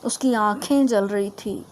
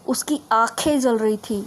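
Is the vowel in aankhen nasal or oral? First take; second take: nasal; oral. First: The vowel in aankhen is nasalized. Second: The vowel in aankhen is oral, not nasalized. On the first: The speaker calls it right. "नाक और मुंह से" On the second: The speaker calls it wrong. "ये भी गलत"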